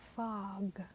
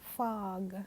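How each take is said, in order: Both takes have the same delivery.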